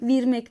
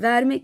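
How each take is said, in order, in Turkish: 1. İlk sesli harf i olarak telaffuz edilir. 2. İlk sesli harf e olarak telaffuz edilir.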